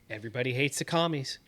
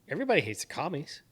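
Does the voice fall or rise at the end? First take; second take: falls; rises. First: The voice falls at the end, like a statement. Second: The voice rises at the end, like a question.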